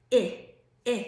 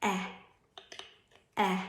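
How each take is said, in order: First: "eh" as the short i, chin still, lips in a slight smirk; short i sound. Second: "eh" as the short e, jaw dropping open; short e sound. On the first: Teacher showing students the elephant's short i sound, "eh" with the chin not moving. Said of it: "And now say the sound". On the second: Teacher showing students the short e sound, "eh" with the chin dropping. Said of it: "have them make the sound eh". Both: Shown as a demonstration.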